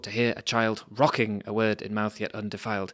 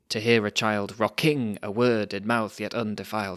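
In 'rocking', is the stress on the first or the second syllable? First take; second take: first; second. First: The stress in 'rocking' is on the first syllable. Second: The stress in 'rocking' is on the second syllable. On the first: The speaker calls it right. "you have to put the stress on the very first syllable" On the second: The speaker calls it wrong. "That sounds horrible"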